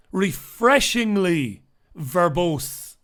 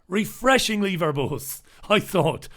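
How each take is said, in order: First: Slow, savoured, in an altered voice; drawled put-on take. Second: Said in the usual way. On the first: Shown as a demonstration. Praising bright Salford kids, slow and savouring. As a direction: roll "refreshingly verbose" slowly, relishing each word. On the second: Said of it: "I thought refreshingly verbose".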